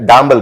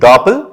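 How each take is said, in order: First: The word has a nasal and b sound. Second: The word has a plain p sound. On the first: The speaker calls it wrong. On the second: The speaker calls it right.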